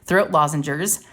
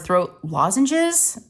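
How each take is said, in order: First: The word ends with an added -gers sound. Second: The word ends with a plain -ges sound. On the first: "I say throat lozengers" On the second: "It's throat lozenges"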